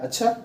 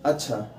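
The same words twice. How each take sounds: First: अच्छा rising high, as a question; questioning tune. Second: अच्छा low and soft with a falling end; plain statement. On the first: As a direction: ask अच्छा, pitch climbing at the end. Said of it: "यानी कि प्रश्न उठ रहा है". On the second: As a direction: state अच्छा quietly, as ordinary acknowledgement. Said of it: "यानी कि सामान्य तौर पे". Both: Shown as a demonstration.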